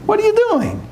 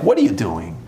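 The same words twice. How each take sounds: First: Sudden much higher mocking taunt; Satan's high taunt. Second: Satan's low jab. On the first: Satan mocking a praying man, high jeering. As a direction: jump up high and jeer at him. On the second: Retold or imitated. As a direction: lean in low and needle him. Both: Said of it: "he's like".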